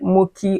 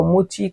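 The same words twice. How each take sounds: First: Mochi said with a k, "MOH-kee"; alternative pronunciation. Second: Mochi said with a ch, "MOH-chee"; alternative pronunciation. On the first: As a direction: say the ch in Mochi as a hard k. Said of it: "I hope I pronounced that correctly". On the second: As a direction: say Mochi with a soft ch sound. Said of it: "Is it pronounced Mochi or Mochi?". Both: Shown as a demonstration.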